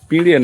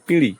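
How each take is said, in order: First: The word ends with an 'e' vowel. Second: The word ends with an 'i' vowel. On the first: This is the local regional form. The speaker calls it wrong. "পিঁড়ে না" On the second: This is the actual standard form. The speaker calls it right. "Actually পিঁড়ি"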